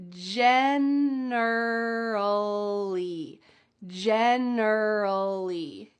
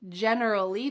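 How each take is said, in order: First: Generally stretched out very slowly; teacher slowing generally way down; very slow syllable by syllable. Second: Said in the usual way. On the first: Shown as a demonstration. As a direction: drag out every syllable of generally. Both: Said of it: "Let's start with the first one".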